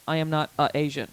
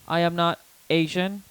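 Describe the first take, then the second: First: An extra 'a' vowel comes before 'Asian'. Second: It is said plainly with no added vowel. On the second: "instead of saying"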